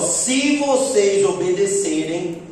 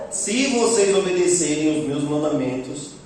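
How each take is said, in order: First: Slow, stressed "se vocês obedecerem"; slow emphasis. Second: Said in the usual way. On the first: Shown as a demonstration. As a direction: draw out "se vocês obedecerem" word by word. (ênfase lenta em "se vocês obedecerem") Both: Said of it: "Olha só".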